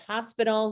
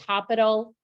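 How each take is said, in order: First: The middle consonant blend is said cleanly. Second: The middle consonant blend is garbled. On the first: The speaker calls it right. "She just couldn't get out that blend" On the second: The speaker calls it wrong. "she would say hospital instead of"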